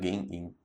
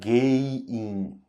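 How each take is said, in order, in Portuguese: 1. O som do n depois de 'ge' é pronunciado. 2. O som do n depois de 'ge' é omitido. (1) "Mas aí o certo mesmo é gen-in"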